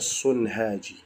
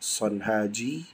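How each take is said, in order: First: The first syllable has the vowel u. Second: The first syllable has the vowel a. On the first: "boleh juga dibaca Sunhaji" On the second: "Boleh dibaca Sanhaji"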